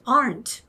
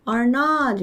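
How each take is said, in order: First: Aren't run together as one word; contracted form. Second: Are not as two separate words; uncontracted form. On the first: (aren't로 줄여서 한 단어로) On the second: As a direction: give are not in full, with a drawn-out not. (are not을 줄이지 않고 두 단어로) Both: Shown as a demonstration. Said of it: "이러지, aren't".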